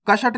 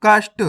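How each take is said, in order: First: कष्ट opened up as "ka-shat"; wrong full-letter reading. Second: कष्ट as one syllable, "kasht"; correct half-letter reading. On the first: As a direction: put a vowel after sh in कष्ट. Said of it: "नहीं पढ़ना". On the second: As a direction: run sh straight into t in कष्ट. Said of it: "कष्ट नहीं पढ़ना". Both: Shown as a demonstration.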